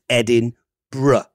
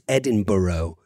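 First: The ending is short and reduced, not borough. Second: The ending sounds like the full word borough. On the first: It is how the city's own people say it. The speaker calls it right. "It's Edinburgh" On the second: It marks the speaker as not knowing the place. The speaker calls it wrong. "as a lot of people in the United States say"

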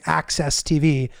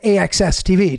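First: AXS is said as the single word access. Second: AXS is spelled out as three separate letters. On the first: It sounds like a small local channel. The speaker calls it wrong. "it sounded like I was saying Access TV" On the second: It sounds like a real, credible network. The speaker calls it right. "I would literally say AXS TV to people"

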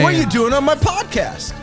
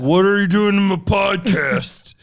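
First: The voice is at a higher, lighter pitch. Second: The voice is pitched noticeably deeper. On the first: "you didn't do the voice" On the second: "Should I have gone deeper?"

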